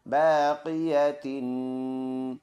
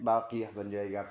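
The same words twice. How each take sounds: First: बाक़िया तिन drawn out slowly with tin sounded; full tanween ending. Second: बाक़िया ending on a soft h at the stop; stop form. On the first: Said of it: "ता to ज़ेर तिन". (बाक़िया तिन, तिन साफ़ बोलें) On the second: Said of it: "stop में यह ता हा पे कन्वर्ट". (बाक़िया, रुककर आख़िर में ह) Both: Shown as a demonstration.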